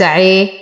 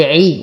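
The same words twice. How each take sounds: First: عي slackened toward an e sound; incomplete kasra. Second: عي with a full, pure i vowel; full kasra. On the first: Teacher showing students the mistake, عي with slack kasra. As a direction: let the i of عي fall short into e. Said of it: "وليس عي". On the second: Teacher showing correct vowel, عي with full kasra. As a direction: complete the i of عي. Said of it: "نتم كسرة العين نقول عي". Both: Shown as a demonstration.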